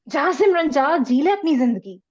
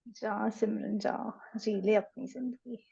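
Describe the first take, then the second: First: It is said in an angry tone. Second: It is said in a sad tone.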